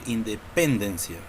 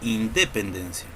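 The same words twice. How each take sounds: First: The stress is on the third syllable. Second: The stress is on the second syllable. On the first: "Tampoco podemos decir independencia" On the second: "Tampoco decimos independencia"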